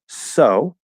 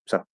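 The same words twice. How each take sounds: First: The S is long, full and clear. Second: The S is short and said quickly. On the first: "nice, good S" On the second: "it's shorter because I'm speaking faster"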